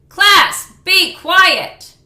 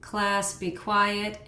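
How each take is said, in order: First: It is shouted forcefully, with strong effort. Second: It is said weakly, with little effort.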